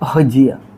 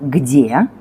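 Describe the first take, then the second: First: Southern accent, with a breathy h-like g. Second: Moscow accent, with a hard g sound.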